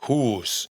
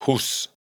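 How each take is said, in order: First: "hus" with a long drawn-out "oo"; long vowel. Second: "hus" with a short, quick "oo"; short vowel. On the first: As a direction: hold the vowel in "hus", like "hoos". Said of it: "U con tilde larga". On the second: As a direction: cut the "oo" of "hus" short before the s. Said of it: "U con tilde corta". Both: Shown as a demonstration.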